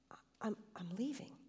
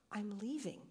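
First: Faint whispered leaving, halting on I'm; weak voice. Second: I'm leaving said clearly and voiced, falling at the end; more distinctly. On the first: Acted. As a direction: barely breathe the words out. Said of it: "in a weak voice". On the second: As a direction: give it plainly now, each word distinct. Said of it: "he repeated more distinctly".

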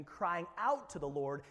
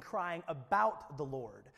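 First: OUT punched against the rest; crying OUT, with the weight on "out"; stress on OUT. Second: ABOUT punched as the contrast word; crying ABOUT, with the weight on "about"; stress on ABOUT. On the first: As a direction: lean hard on the word "out". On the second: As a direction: lean hard on the word "about". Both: Shown as a demonstration. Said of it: "there's a difference".

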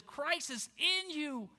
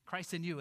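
First: Slow, with the weight on "in"; stress on in. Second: Weight on the final "you"; stress on you. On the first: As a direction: lean hard on "in", not on "Christ". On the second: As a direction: land firmly on "you". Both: Shown as a demonstration. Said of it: "Second emphasis in this phrase is Christ in you".

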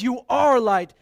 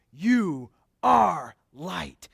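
First: Louder "You ARE light" with ARE hit; "are" punched in a proclaiming voice; stress on are. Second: "You ARE light" slowly, leaning hard on ARE; drawn out with "are" punched; stress on are. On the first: Preacher building to the verse's point, loud and stressed. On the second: Preacher correcting the wording for his congregation, slow and stressed. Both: Shown as a demonstration. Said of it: "He says".

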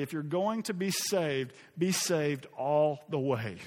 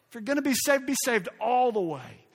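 First: Slow, deliberate quotation; measured quote. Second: Higher, louder, impassioned exhortation; emphatic repeat. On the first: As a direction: deliver it slowly, weighing the words. Slow first reading of quote. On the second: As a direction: drive the line home with raised pitch. Emphatic repeat of loved quote. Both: Retold or imitated.

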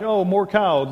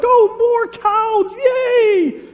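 First: Novelty wearing off, falling tune; less thrilled grandkid. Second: Put-on drawn-out, very high, loud childish cheer; excited grandkid. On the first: Acted. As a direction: play a kid losing interest, still high and loud. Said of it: "and then what are they like". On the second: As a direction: cheer at full volume like an overjoyed little kid. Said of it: "they're so excited to see this cow".

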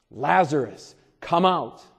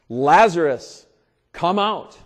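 First: A firmer, less loud repeat of the call. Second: Loud commanding call, held long. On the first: Preacher repeats Jesus' call to Lazarus, firm and carrying. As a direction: call the name again with authority. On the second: Preacher calls out as Jesus at the tomb, loud commanding call. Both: Retold or imitated. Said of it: "called out in a loud voice".

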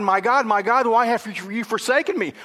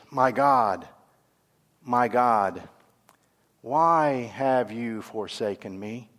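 First: High, pleading cry to God. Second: Low, slow, subdued lament; Jesus, forsaken. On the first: Psalm writer to God as everything turns against him, crying out. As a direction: cry out in acted desperation, pitched up. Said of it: "he cries out to God". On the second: Jesus hanging on the cross, forsaken and subdued. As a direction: feel abandoned, let the words sink down slowly. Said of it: "Jesus feels abandoned". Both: Acted.

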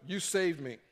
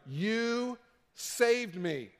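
First: Said in the usual way. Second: Very slow, drawn-out, heartfelt thanks; awed gratitude. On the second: Retold or imitated. Believer tells his savior in slow, overwhelmed gratitude. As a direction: breathe it out like a grateful survivor.

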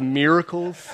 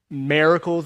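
First: "miracles" with a MEER first syllable; "miracles" said the standard way, like "MEER-uh-kulls"; standard pronunciation. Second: "miracles" with a drawled MARE first syllable. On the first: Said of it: "instead of miracles". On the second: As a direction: say "miracles" as "mare-acles", country style. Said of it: "make fun of me for saying". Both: Shown as a demonstration.

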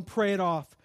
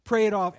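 First: Said in the usual way. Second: "Pray it off" repeated louder, punching "Pray"; emphatic repeat. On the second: Real, not acted. Preacher urging the congregation, stressing "Pray it off" louder. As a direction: hammer the phrase home.

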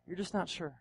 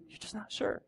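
First: Said in the usual way. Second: Breathy whisper, much softer; whispered doubt. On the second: Acted. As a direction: let the doubt slip out as a whisper. Repeating the doubt softly.

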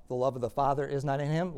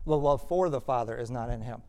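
First: Said in the usual way. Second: "for" picked out as the key word; stress on FOR. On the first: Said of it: "it can mean either of". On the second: Shown as a demonstration. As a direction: lean on "for", the rest in an even teaching voice. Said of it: "it can also be translated for".

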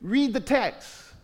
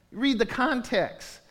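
First: Slow, each word weighed; slow emphatic plea. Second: Slow and deliberate, stress on Read; slow emphatic plea. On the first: Pastor urging the church to read, slow and earnest. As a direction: plead with them to read it. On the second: Pastor urging the church to read the context, slow. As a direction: press the point gently but firmly. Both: Real, not acted. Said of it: "just seriously".

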